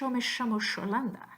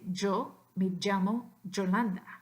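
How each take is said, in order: First: The y and ll sound like English sh. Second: The y and ll sound like English j. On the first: "the S with the hat is simply the unvoiced version" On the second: "the hat, like judge"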